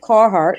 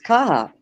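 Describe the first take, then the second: First: The R sounds are clearly pronounced. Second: The R sounds are dropped. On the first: This is how it's said after living down south. "I say Carhartt because I lived down south for so long" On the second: This is how it's said in Maine. "but it's Carhartt. Just get rid of the R's"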